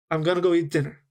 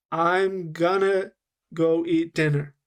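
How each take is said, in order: First: "I'm gonna go eat dinner" run together at natural speed; casual linked phrase, "gonna" kept short; linked words. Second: Drawn-out "I'm gonna", then "go eat dinner"; slow-motion demo of the linked phrase. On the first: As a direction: flow through it in native rhythm. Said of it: "I linked my words together". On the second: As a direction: stretch "gonna" slowly so learners hear it. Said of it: "let me slow down what I did". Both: Shown as a demonstration.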